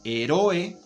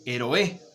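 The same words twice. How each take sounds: First: Heroe with the stress moved to RO; wrong stress. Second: Héroe with the first syllable stressed. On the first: Teacher showing a wrongly stressed word, RO stressed. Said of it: "Se escucha muy raro si yo digo heroe". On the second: Teacher giving the correct version, HÉ stressed. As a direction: say héroe with HÉ on top. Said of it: "o que si yo digo héroe". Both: Shown as a demonstration.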